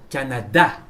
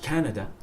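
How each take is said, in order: First: "Canada" the French way, last syllable stressed; French pronunciation. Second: "Canada" the English way, first syllable stressed; English pronunciation. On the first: Teacher showing students our way to say it, "Canada" with French end stress. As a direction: land hard on the final "da" of "Canada". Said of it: "please say Canada". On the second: Teacher showing what not to say, "Canada" with English first-syllable stress. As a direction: stress "Can" in "Canada" and weaken the rest. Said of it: "Not Canada". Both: Shown as a demonstration.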